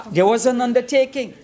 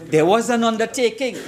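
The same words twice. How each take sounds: The two takes are said the same way.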